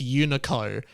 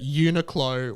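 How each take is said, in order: First: The name is said without a 'kl' sound. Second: The name is said with a 'kl' sound. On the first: The speaker calls it wrong. "my mum was insistent that Uniqlo was just Unico" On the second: The speaker calls it right.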